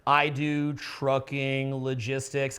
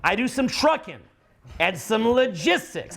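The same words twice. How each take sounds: First: Slow, lower, lifeless; flat delivery. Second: Brighter, livelier lift on "trucking"; with pep. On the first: Retold or imitated. Coach imitates the student's dull answer, slow and flat. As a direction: say it with no energy at all. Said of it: "a little bit flat". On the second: Shown as a demonstration. Coach shows the lively version of the job answer. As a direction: put some bounce in it. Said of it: "Put a little pep in it".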